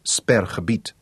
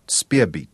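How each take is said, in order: First: It is said as three syllables, Sperr-ge-biet. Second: It is said as two syllables, Speer-beet. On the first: The speaker calls it right. "instead of Sperrgebiet" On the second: The speaker calls it wrong. "She pronounced it Speerbeet"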